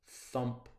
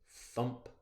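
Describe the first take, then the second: No difference in how they are said.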